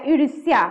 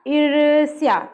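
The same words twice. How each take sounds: First: Said in the usual way. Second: ईर्ष्या with the ई drawn out slowly; long vowel stretched. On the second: Shown as a demonstration. Teacher showing students the long ई, stretching ईर्ष्या slowly. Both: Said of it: "ईर लंबा जा रहा है".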